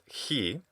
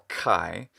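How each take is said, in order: First: The letter name is said the modern Greek way. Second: The letter name is said the English way. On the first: "which in modern Greek today is pronounced he" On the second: "which we in English usually call chi"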